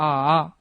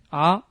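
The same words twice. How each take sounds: First: The vowel is said in the third tone. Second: The vowel is said in the second tone. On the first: "삼성으로 가면" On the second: "이성으로 가면"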